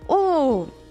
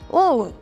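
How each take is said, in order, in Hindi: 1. यह आवाज़ ऊँची पिच पर कही गई है। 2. यह आवाज़ बीच की पिच पर कही गई है। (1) "and then little more high" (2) "to little more high"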